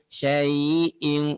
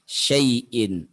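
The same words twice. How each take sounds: First: The vowel is drawn out long. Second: The vowel is said short and soft. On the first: The speaker calls it wrong. "tidak manjang, tidak ala syai'in" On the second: The speaker calls it right. "cukup dibaca dengan lembut seperti kita menyebut kata ai"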